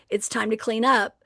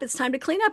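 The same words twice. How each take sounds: First: It sounds clear, firm and matter-of-fact. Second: It sounds tentative and asking, like a request. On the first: The task is not optional. The speaker calls it right. "we're very clear, very matter of fact" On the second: The task seems optional. The speaker calls it wrong. "instead of saying"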